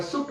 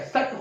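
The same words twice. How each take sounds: First: "सुट" with s and the oo of put; "सुट", C sounded as स; hypothetical pronunciation. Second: "सट" with s and the vowel of cut; "सट", C as स, short "uh"; hypothetical pronunciation. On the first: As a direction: say "सुट" starting on s, not k. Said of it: "सी को केवल स पढ़ते". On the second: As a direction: say "सट" like cut but starting on s. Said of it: "सुट होता या सट होता". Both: Shown as a demonstration.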